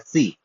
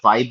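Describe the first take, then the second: First: The vowel sounds like 'ee'. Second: The vowel sounds like 'eye'. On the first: "but इसका उच्चारण है फी" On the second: "इसको मैथमेटिक्स में फाइव बोला जाता है"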